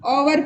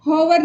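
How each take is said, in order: First: ओवर starting on a vowel, no h; vowel-first ओवर, the h left silent. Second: होवर with an h pronounced at the start; होवर, starting on a clear h; sounded H. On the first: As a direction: say hour as ओवर, dropping the h. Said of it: "पढ़ेंगे". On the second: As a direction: wrongly read hour as होवर, h sounded. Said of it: "नहीं पढ़ के". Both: Shown as a demonstration.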